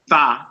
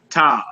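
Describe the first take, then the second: First: It begins with a TH sound. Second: It begins with a plain T sound. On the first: "Some say tha, T H A" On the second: "T as in tall"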